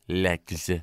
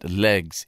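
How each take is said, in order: First: The word ends with a voiceless 'ks' sound. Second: The word ends with a voiced 'gz' sound. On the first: The speaker calls it right. "it's legs" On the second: The speaker calls it wrong. "it's not legs"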